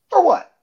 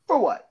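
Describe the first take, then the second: First: Indignant demand. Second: Indignant repeat. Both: Retold or imitated. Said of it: "looks back and is like".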